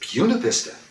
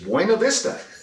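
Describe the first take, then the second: First: Buena Vista is pronounced the local English way. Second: Buena Vista is pronounced the Spanish way. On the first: "Here it's Buena Vista" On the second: "I can speak Spanish, and I know that B U N A V I S T A is Buena Vista"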